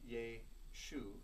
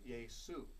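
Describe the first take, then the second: First: The middle consonant is an sh sound. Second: The middle consonant is an s sound. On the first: This is the Hebrew form of the name. "The Greek language has no S H sound" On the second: This is the Greek form of the name. "so they simply use the S"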